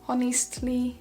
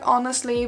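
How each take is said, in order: First: The word starts like the word honey. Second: The word starts like the plain word honest. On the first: "instead of honest, it's honey" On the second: "It's like honestly"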